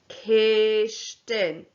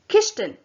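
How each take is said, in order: First: The word is said slowly. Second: The word is said quickly. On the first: "Say it after me, Gamal" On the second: "And now say it quickly. Gatapa"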